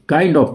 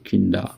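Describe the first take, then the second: First: 'Kind of' is said in full. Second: 'Kind of' is reduced to 'kinda'.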